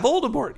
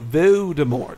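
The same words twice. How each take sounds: First: Every letter in the name is pronounced. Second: One letter in the name is left silent. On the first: This is how everybody says it. "say it like that" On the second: This is how it is supposed to be said. "It's a silent L"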